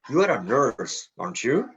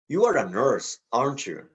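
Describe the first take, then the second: First: The voice rises at the end of the tag. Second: The voice falls at the end of the tag. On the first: The speaker is not sure and really asks. "Rising intonation" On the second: The speaker is sure and just seeks confirmation. "Falling intonation"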